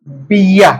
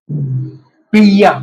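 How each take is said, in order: First: Said in the usual way. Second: 'बिया' stretched out very slowly. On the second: Shown as a demonstration. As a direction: draw out 'बिया' syllable by syllable. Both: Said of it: "बे की आवाज देता है ये लफ्ज".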